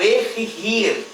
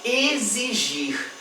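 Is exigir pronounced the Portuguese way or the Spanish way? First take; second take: Spanish; Portuguese. First: It is said with Spanish sounds. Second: It is said with Portuguese sounds. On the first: This is the Spanish word. "em espanhol" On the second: This is the Portuguese word. "em português"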